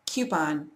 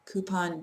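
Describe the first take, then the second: First: "coupon" as KYOO-pon. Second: "coupon" as KOO-pon; no y in coupon, plain "koo"; coupon without Y. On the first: Speaker giving own word, coupon as kyoo-pon. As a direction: slip a y after the c in coupon, "kyoo". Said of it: "I definitely put a Y here". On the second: Speaker showing the disliked version, coupon as koo-pon. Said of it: "sounds a little too much like tampon". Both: Shown as a demonstration.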